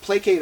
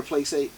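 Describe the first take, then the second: First: "placate" said PLAY-kate, hard K in the middle. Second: "placate" said PLAY-sate, soft C in the middle. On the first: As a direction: say "placate" with a k sound for the c. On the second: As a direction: say "placate" with an s sound for the c. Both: Shown as a demonstration. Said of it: "is it placate or placate".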